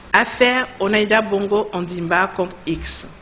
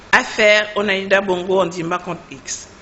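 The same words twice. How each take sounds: The two takes are said the same way.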